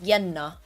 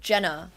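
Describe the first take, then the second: First: The name is said with a Finnish pronunciation. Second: The name is said with an English pronunciation.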